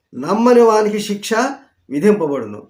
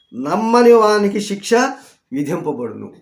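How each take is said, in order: Both takes have the same delivery.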